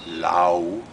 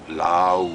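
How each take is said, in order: First: The vowel glides like 'ow'. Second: The vowel glides like 'ow'.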